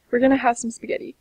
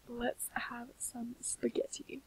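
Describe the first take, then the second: First: Cheerful announcement. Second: Soft and slow, whispered. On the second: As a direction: whisper it slowly like a treat. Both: Real, not acted.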